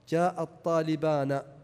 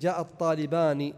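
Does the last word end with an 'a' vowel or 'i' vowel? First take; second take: a; i. First: The final n is followed by an 'a' vowel. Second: The final n is followed by an 'i' vowel. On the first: "ولكنها قد تفتح أحيانا في لغة قليلة" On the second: "يعني أن نون المثنى تكسر"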